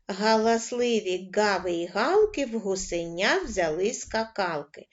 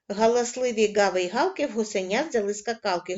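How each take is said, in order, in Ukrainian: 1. Рядок читається помірним темпом. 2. Рядок читається швидким темпом. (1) "кожен раз пришвидшуємо темп" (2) "кожен раз пришвидшуємо темп"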